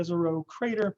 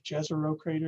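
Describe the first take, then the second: First: Jezero is said without the American pronunciation. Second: Jezero is said with the American pronunciation.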